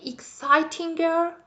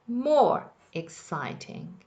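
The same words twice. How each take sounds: First: Put-on exciting girl asked as a high, rising question; wrong form. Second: More exciting, slow, with more stressed; correct form. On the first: Teacher testing the class with the wrong comparative. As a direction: float exciting girl as a tempting mistake. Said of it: "no, don't say it". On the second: Teacher giving her class the right comparative. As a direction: lean on more, then let exciting fall in place. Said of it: "It is". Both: Shown as a demonstration.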